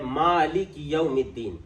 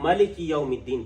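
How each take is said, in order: First: The first vowel of the first word is long. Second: The first vowel of the first word is short. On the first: This is the reading we follow. "हम इसके ऊपर छोटा सा अलिफ लिखते हैं" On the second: This is another tribe's way of reading it. "हो सकता है कोई अरब का कबीला हो जो इसको मलिक यौमिद्दीन पढ़े"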